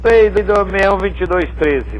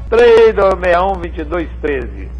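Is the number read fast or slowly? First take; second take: fast; slowly. First: The number is read out quickly. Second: The number is read out slowly. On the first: "Vou falar rápido" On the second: "vou falar devagar para você anotar"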